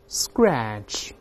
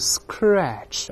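First: The consonant after s is voiced. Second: The consonant after s is a voiceless k. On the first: The speaker calls it right. "注意浊化s，后面重读，声带一定要震动" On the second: The speaker calls it wrong. "也不要读scratch"

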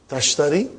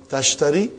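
Both takes have the same delivery.

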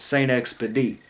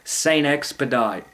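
First: It is said in a New Orleans pronunciation. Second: It is said in a general pronunciation.

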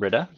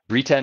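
First: The name does not sound like Rita. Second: The name sounds like Rita with a B. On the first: The speaker calls it wrong. "not Brita, she tells me" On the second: The speaker calls it right. "It's like Rita with a B"

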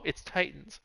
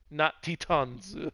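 First: It is said with normal English pronunciation. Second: It is said in Japanese-style sounded-out pronunciation. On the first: The speaker calls it right. "He should have actually looked at the word and said, oh, it's Titans" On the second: The speaker calls it wrong. "that's how it's sounded out phonetically in Japanese"

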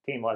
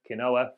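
First: The word is said in its accepted pronunciation. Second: The word is sounded out as it is spelled. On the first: This is how the word is actually said. The speaker calls it right. "is how it's actually said" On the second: The speaker is trying the word for the first time. The speaker calls it wrong. "for people that are properly giving it a first attempt"

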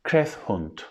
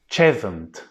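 First: The name is sounded out following its spelling. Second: The name is said in its established local form. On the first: This is how a newcomer would guess it. The speaker calls it wrong. "Bu istasyon ismini şu şekilde telaffuz etmek çok normal" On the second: This is how the name is actually said. The speaker calls it right. "Ama istasyon ismi şu şekilde telaffuz ediliyor"

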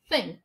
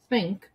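First: The th sound is strong and exaggerated. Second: The th sound is soft and subtle. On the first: "No começo, faz think mesmo" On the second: "Assim, mais discreto"

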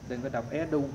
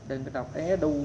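Both takes have the same delivery.

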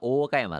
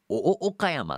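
First: The o vowels merge into one long vowel. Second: Each o vowel is pronounced as a separate beat. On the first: The speaker calls it wrong. "だいたいみんな大岡山って言っちゃわない？" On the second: The speaker calls it right. "お、お、岡山っていう人あんまいないですよね"

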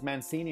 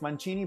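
First: The name is said with American pronunciation. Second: The name is said with Italian pronunciation. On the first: This is how the family in the States says it. "the way they pronounce it is Mancini" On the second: This is how the name is said in Italy. "in the original Italian it's Mancini"

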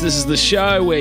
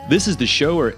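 First: It is said in an Australian accent. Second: It is said in an American accent. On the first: "I just realized when I say show, I sound really weird" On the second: "Here, I'll do an American accent"

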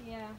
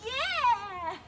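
First: It is said flatly, without energy. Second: It is said with lively enthusiasm.

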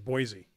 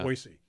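First: The middle consonant is a buzzing z sound. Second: The middle consonant is a hissing s sound. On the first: This is how most other people say it. The speaker calls it wrong. "everyone else says Boise. ... kinda Lazy" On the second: This is the proper local way to say it. The speaker calls it right. "You pronounce The S"

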